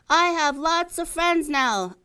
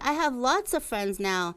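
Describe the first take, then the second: First: It is said very loudly. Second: It is said at normal, softer volume.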